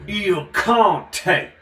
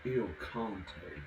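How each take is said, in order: First: Loud, higher, proud announcing of Il Conte; booming put-on voice. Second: Quieter, lower murmured Il Conte; low mock voice. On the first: Reading the wine label aloud, booming put-on voice. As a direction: proclaim the wine name like a grand count. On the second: Showing the voice that talks like that, low mock murmur. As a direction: drop low into a sly voice. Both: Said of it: "Somebody talks like that".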